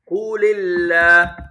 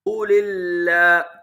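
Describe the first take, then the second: First: The words run together with a linking vowel. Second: The words run together with a linking vowel.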